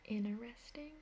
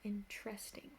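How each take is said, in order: First: The t sound is left out. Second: The er sound is left out. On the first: Some other speakers say it this way. "some people say interesting without like the T" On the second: This is the speaker's own way. "I would say interesting without the like er"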